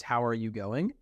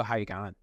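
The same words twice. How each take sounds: First: Said in the usual way. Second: Clipped-word Australian greeting, words run together; relaxed Australian accent. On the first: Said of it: "there's an Australianism, which is". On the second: Shown as a demonstration. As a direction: say it like an Aussie, casual and run-on. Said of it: "But they go".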